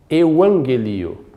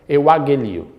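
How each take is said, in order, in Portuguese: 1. O primeiro gama é pronunciado com som de N. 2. O primeiro gama é pronunciado com som de G. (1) "o primeiro ele soará como se fosse um N" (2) "tente falar euagelio, como se fossem dois Gs aqui"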